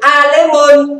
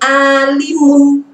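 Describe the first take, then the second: First: The vowel after the l sounds like 'e'. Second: The vowel after the l sounds like 'i'. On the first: The speaker calls it wrong. "tidak boleh alemun" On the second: The speaker calls it right. "kalau seperti ini alimun"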